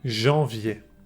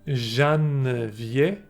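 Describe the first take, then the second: First: The vowel is nasal with no N heard. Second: An N consonant is heard after the vowel. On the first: The speaker calls it right. "I'm saying janvier" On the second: The speaker calls it wrong. "I'm not saying janvier"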